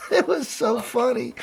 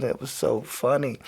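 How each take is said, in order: First: High, teary laugh through the words; crying laughing. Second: Said in the usual way. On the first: Real, not acted. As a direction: still wheezing from laughter.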